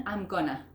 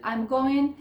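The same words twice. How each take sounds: First: GOING TO shrunk to GONNA; "gonna" as one merged word, falling; reduced form. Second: GOING pronounced in full, louder and higher; "going" clearly said with its -ing; full form. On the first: Teacher showing what it becomes, GONNA run together. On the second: Teacher citing the long form for learners, GOING fully pronounced. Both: Shown as a demonstration. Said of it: "termina siendo un".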